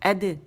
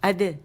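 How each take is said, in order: First: The vowel is short and only half open. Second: The same.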